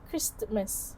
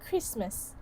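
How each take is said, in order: First: The consonant after the s is pronounced. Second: The consonant after the s is dropped. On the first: "instead of Christmas" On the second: "so it becomes Christmas"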